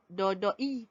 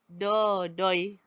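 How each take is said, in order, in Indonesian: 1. Kedua vokal itu diucapkan terpisah. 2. Kedua vokal itu meluncur jadi satu bunyi.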